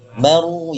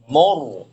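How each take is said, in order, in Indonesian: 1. Suku kata m itu tipis, seperti ma. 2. Suku kata m itu tebal, seperti mo. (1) "ma itu tipis, bukan dibaca mo, tapi ma" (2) "Jangan dibaca moru ya ... Ini kesalahan juga"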